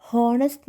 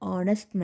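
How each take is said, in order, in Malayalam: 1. ഈ വാക്ക് വ്യക്തമായ h ശബ്ദത്തിലാണ് തുടങ്ങുന്നത്. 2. ഈ വാക്ക് സ്വരാക്ഷരത്തിലാണ് തുടങ്ങുന്നത്, h ശബ്ദമില്ല. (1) "നമ്മൾ പറയില്ല" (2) "ഇവിടെ സത്യം പറഞ്ഞാൽ എച്ച് സൈലൻ്റ് ആണ്"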